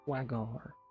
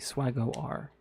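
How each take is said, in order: First: The R is blended into the name. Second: The R is said as a separate letter.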